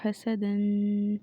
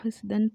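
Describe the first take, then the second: First: The s sound is followed by a vowel. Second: The s sound has no vowel after it. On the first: The speaker calls it right. "सीन के ऊपर जो है हरकत है" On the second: The speaker calls it wrong. "मुतहरिक हर्फ को साकिन बना दिया"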